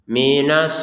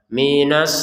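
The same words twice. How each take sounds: No difference in how they are said.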